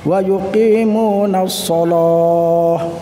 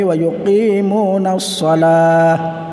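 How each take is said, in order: First: The vowel in shalah sounds like o. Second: The vowel in shalah sounds like a.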